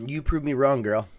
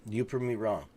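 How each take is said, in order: First: Loud, delighted admission; loud excited. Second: Said in the usual way. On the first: Real, not acted. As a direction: concede it loudly with glee. Telling Allison she was lucky.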